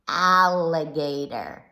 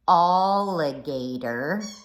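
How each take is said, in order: First: The first syllable sounds like "ah". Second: The first syllable sounds like "all". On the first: The speaker calls it right. "Ah, ah, alligator" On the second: The speaker calls it wrong. "But we don't say alligator"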